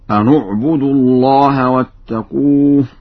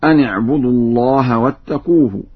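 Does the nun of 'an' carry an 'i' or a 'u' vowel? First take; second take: u; i. First: The nun is said with a u vowel. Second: The nun is not said with a u vowel.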